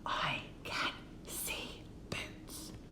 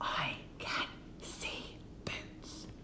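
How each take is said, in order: First: The sentence is whispered softly. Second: The sentence is whispered softly.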